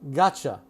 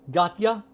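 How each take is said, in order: First: The T and Y blend into a "ch" sound. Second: The T and Y sounds stay separate.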